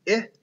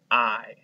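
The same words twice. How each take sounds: First: 'I' said as the short vowel ih, as in igloo; short i sound. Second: 'I' said as eye, the letter's own name; long i sound. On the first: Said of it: "make the short sound". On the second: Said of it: "or the long sound". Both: Shown as a demonstration.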